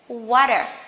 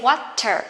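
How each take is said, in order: First: The middle t is a soft d sound. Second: The middle t is a clear t sound. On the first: "T that is not stressed, you can pronounce as the, soft the" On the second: "You can say water"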